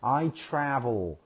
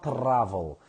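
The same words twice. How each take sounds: First: "I travel" slowly with a smooth, untrilled R; American R. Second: "travel" with a trilled R; wrong R demo. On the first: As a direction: model "travel" with an American R, drawn out. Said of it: "So you have to say". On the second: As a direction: say "travel" rolling the R hard on the tongue tip. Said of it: "It's not travel". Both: Shown as a demonstration.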